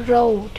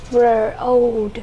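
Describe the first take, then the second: First: Said in the usual way. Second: "Road" broken into its sounds; teacher slowly blending the sounds of "Road"; sounded out. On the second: Shown as a demonstration. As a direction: stretch "Road" sound by sound for pupils.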